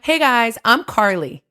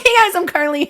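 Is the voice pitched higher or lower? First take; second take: lower; higher. First: The voice is lower and more nasal. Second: The voice is higher and less nasal. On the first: "I lowered it a little, and then I went through my nose more than my chest voice" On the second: "usually it's like"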